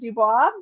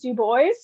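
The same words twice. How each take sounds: First: The name is said with a French-style ending. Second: The name is said with an English-style ending. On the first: The speaker calls it wrong. "instead of" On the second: The speaker calls it right. "is actually pronounced"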